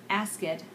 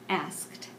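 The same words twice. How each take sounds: The two takes are said the same way.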